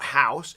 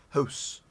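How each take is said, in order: First: It is said with a non-Canadian accent. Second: It is said with a Canadian accent. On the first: The speaker calls it wrong. "it's not house" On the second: The speaker calls it right. "It's house"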